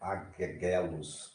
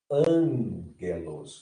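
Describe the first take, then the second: First: Both gammas are said as hard g sounds. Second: The first vowel is nasal, with one g sound. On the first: The speaker calls it wrong. "não é aguegelos" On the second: The speaker calls it right. "a pronúncia dessa palavra é ângelos"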